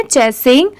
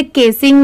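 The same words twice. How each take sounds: First: चेसिंग opening on a "ch" sound; "ch" start. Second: केसिंग opening on a "k" sound; hard "k" start. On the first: Teacher correcting the misreading, चेसिंग with a "ch". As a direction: say चेसिंग with CH as in "chair". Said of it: "इसे हम पढ़ेंगे". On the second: Teacher warning learners off a misreading, केसिंग with a "k". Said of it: "सी की sound क से". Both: Shown as a demonstration.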